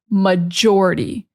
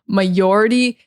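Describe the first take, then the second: First: The J sound is strong and firm. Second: The J sound is weak and soft. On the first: The speaker calls it right. "You need to be pronouncing that J very strong" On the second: The speaker calls it wrong. "They're not pronouncing the J strong enough"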